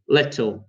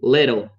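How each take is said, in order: First: It is said in a British accent. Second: It is said in an American accent. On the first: "So with British accent, we're gonna say little" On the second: "Whereas American accent should be little"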